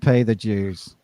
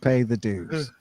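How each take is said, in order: First: The word is said in a British-style accent. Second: The word is said without the British-style accent. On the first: "I was saying that with a British or a Northern Irish accent" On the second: "so I'm gonna say dues"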